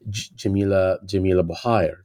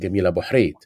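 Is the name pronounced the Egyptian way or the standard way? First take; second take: standard; Egyptian. First: The name is said in a standard, non-Egyptian pronunciation. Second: The name is said in the Egyptian pronunciation. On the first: "who is known as" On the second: "Egyptians would call it"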